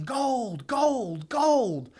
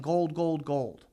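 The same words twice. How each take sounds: First: High, loud, rising mock shout of gold; excited yelling. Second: A mild mock yell that fades away; half-hearted yelling. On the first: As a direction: yell it through the street like a prospector who struck it rich. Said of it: "And he's yelling". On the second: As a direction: toss off the call without raising the voice much. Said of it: "he ran through the street yelling".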